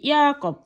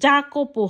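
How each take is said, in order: First: The word begins with a y sound. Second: The word begins with a j sound. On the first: The speaker calls it right. "এখানে হয়েছে কি ইয়াকপ" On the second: The speaker calls it wrong. "এখানে কিন্তু জাকপও হয় নাই"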